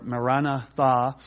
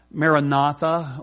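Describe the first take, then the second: First: "Maranatha" broken up as ma-RA-na THA; alternative pronunciation. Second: "Maranatha" as mair-a-NAH-tha, run together as one word; common pronunciation. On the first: Preacher offering scholars' other reading, "Maranatha" split as ma-RA-na THA. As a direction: set the final THA of "Maranatha" apart, slowly. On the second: Preacher giving the Aramaic phrase, "Maranatha" said mair-a-NAH-tha. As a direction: stress the third syllable of "Maranatha". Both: Shown as a demonstration. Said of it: "scholars disagree on how i-, it's pronounced".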